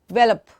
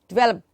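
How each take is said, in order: The two takes are said the same way.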